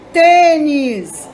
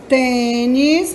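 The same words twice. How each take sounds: First: "Tênis" with a loud, long "Tê", then falling; stress on first syllable. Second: "tênis" drawn out as tê-nis, rising; syllable by syllable. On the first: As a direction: punch the "Tê" in "Tênis", let "nis" drop. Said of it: "O tem é a sílaba mais forte". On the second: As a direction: separate both syllables of "tênis", lifting the end. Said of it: "separando em sílabas". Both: Shown as a demonstration.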